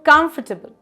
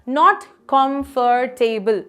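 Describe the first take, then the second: First: The word is squeezed into fewer syllables. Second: Every syllable of the word is said fully. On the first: The speaker calls it right. "let's squeeze this" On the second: The speaker calls it wrong.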